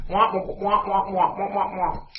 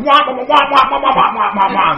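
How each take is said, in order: First: Higher droning wordless preacher at usual volume; Charlie Brown's teacher. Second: Loud, high wah-wah shouting; hammed-up wordless angry preaching; mad pastor. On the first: Retold or imitated. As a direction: keep up a meaningless wah-wah drone. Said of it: "He sounded like Charlie Brown's teacher". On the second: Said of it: "now the pastor's real mad".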